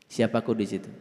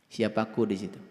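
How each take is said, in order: Both takes have the same delivery.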